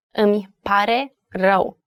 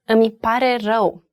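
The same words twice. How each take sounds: First: "Îmi pare rău" split word by word; three separate words. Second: Said in the usual way. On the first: Shown as a demonstration. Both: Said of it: "Three words".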